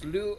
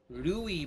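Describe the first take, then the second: First: The name is said with one syllable. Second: The name is said with two syllables. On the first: The speaker calls it right. "It's Lu on the on this on the neutral tone" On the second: The speaker calls it wrong. "everyone was saying his name very wrong"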